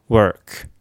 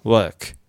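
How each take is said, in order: First: "work" with tongue curled into r; American-style "work". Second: "work" with a muffled er and no r; British-style "work", held-in vowel. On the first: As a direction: model "work" with an r-coloured er. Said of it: "アメリカ発音". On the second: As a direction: keep the mouth narrow on "work". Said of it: "イギリスっぽい音". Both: Shown as a demonstration.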